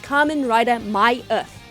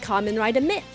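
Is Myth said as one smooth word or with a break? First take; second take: break; smooth. First: Myth is said with a break inside it. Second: Myth is said as one smooth word. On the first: The speaker calls it right. "with the little dash being so important" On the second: The speaker calls it wrong. "I would read that as Kamen Rider Myth. But no"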